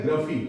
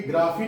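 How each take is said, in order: First: ग्रफी with a short uh; correct pronunciation. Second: ग्राफी with a long AA; wrong pronunciation. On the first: Teacher gives the right form, ग्रफी with short uh. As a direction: say ग्रफी as GRUH-fee, falling. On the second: Teacher shows what not to say, ग्राफी with long AA. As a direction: say ग्राफी as GRAA-fee. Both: Shown as a demonstration. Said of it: "ग्राफी नहीं बोलनी है".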